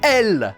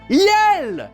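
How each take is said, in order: First: The word starts directly with the vowel, no y. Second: The word starts with a clear y sound. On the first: The speaker calls it wrong. "elle dit toujours Twinkle L" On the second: The speaker calls it right. "C'est Yell, espèce d'imbécile!"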